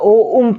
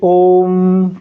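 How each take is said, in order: First: It is split into two separate parts, o and um. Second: It is one syllable with a long, drawn-out o. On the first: The speaker calls it wrong. "ये गलत पढ़ते हैं" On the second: The speaker calls it right. "ओ का उच्चारण तीन तीन गुना"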